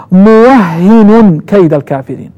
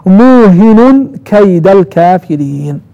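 First: موهن as muwahhinun, with a doubled h and -un. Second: موهن as muuhinun, long u and single h; nunation without doubling. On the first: Teacher correcting the first reading, doubled h in موهن. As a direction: slowly recite موهن with shadda and nunation. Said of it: "يعني بالتشديد". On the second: Teacher showing the second reading, موهن without doubling. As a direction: slowly recite موهن with -un, no shadda. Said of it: "بالضم ولكن بدون تشديد". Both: Shown as a demonstration.

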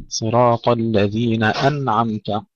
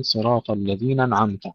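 First: Slow, clear glottal stop opening أنعمت; sounded hamza. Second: أنعمت slurred onto الذين without glottal stop; dropped hamza. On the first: Teacher modelling correction, slow with clear hamza in أنعمت. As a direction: separate الذين from "an" in أنعمت with hamza. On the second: Teacher imitating the brothers' error, hamza dropped from أنعمت. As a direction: glide from الذين straight into the n of أنعمت. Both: Shown as a demonstration. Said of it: "يحذفون الهمزة وهذا خطأ".

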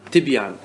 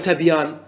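First: تبيان said tibyan, with an i after the t; correct vowelling. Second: تبيان said tabyan, with an a after the t; wrong vowelling. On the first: Teacher correcting the mistake, تبيان properly voiced tibyan. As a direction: give the proper تبيان as tib-yan. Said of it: "وإنما تقول تبيان". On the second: Teacher warning what not to say, تبيان mispronounced as tabyan. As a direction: give the faulty تبيان as tab-yan. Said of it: "ولا تقل تبيان". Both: Shown as a demonstration.

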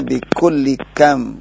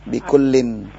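First: "bikulli" ending in open -li before "kam"; no final n on "bikulli", straight into "kam"; without tanwin. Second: "Bikullin" ending in a clear -in; with tanwin. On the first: ("bikulli kam" tanpa tanwin, berakhir -li) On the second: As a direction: sound the final n of "Bikullin". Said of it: "Itu yang di atas kurang tanwin". ("Bikullin" dengan tanwin, berakhir bunyi -in) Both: Shown as a demonstration.

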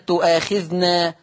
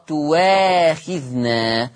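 First: تؤاخذنا with a glottal stop before long aa; slow تؤاخذنا with clear hamza; hamza kept. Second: تواخذنا as "tuwaakhidhna", no glottal stop; slow recitation with w for the hamza in تواخذنا; hamza replaced by waw. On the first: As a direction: say تؤاخذنا "tu'aakhidhna". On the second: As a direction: say a clear w in تواخذنا. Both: Shown as a demonstration. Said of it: "تؤاخذنا تقرأ تواخذنا".

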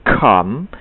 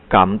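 First: "come" slow, k bursting with air; right take of "come", breathy k; aspirated k. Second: Wrong take of "come"; flat unaspirated k. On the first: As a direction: pop the k in "come". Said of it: "tetapi come". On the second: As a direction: say "come" the local way, k held in. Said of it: "Tidak bisa mengucapkan come". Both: Shown as a demonstration.

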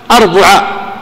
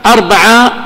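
First: أربعة said arbuʕa with damma on ب; u in the middle. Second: أربعة said arbaʕa with fatha on ب; a in the middle. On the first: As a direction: say أربعة with a u after the b. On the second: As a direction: say أربعة with an a after the b. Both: Shown as a demonstration. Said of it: "تثلث العين".

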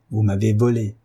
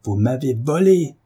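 First: Said in the usual way. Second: « volé » lancé plus haut et plus fort; le répéter en tonnant; voix éclatante. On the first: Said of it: "répéta l'Hercule". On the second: Acted. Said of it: "d'une voix si éclatante". (le mari accuse sa femme d'une voix éclatante)

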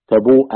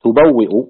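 First: تبوء read as tabū'u, a slip; misread word. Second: تبوئ said tubawwi'u, stressed and loud; self-corrects to تبوئ as tubawwi'u; corrected reading. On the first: Reader slips, saying تبوء as tabū'u. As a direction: says تبوء as tabū'u before correcting. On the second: Reader corrects himself, firm tubawwi'u for تبوئ. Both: Real, not acted. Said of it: "نعم".

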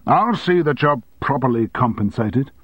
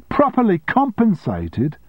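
First: Said in the usual way. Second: Much higher, slow, incredulous outburst; shouted. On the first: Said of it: "boss offers compensation". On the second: A narrator's reading. Secretary throwing her boss's offer back, shouted. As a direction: fling the words back at him. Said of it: "shouted Sally".

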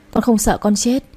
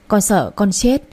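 First: "con không sợ con chết" leaning on không; correcting herself. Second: "Con sợ con chết" with chết lifted; choked plea. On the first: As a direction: stress on không, rising. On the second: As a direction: stress on chết, rising. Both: A narrator's reading. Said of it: "mắt đỏ nghẹn ngào nói".

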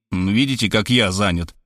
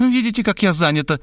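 First: Lower, smug retort; Robert mimicking her triumphantly. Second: High, smug excuse; woman showing off her busyness. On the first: A narrator's reading. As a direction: throw her words back at her. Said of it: "торжествуя сообщил я". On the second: Acted. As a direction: brush him off importantly. She answers her phone.

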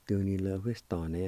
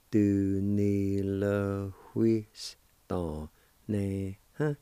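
First: Said in the usual way. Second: Very slow, syllable by syllable. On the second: Shown as a demonstration. Teacher drawing out the word for learners. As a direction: spell it out in sound, slowly. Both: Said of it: "it's pronounced like this".

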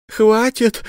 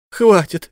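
First: Пронзительный крик, намного выше; закричать в отчаянии. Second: Громкий отчаянный крик, высоко; повторить крик, ещё громче. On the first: (подруга кричит следователю, высоко и громко) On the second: (подруга молит о пощаде, крича) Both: Acted. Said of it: "закричала вдруг его подруга".

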